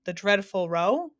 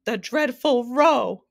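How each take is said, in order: First: Slow, rising hopeful question; cheery, tentative answer lifting at the end; bright volunteering. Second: Loud, high, drawn-out wail; hammed-up grief-stricken howl; anguished cry. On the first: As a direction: offer it brightly as a guess. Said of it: "volunteered the humbug brightly". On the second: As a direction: cry it out in anguish, stretching the words. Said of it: "cried the anguished Din". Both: A narrator's reading.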